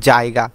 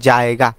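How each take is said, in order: No difference in how they are said.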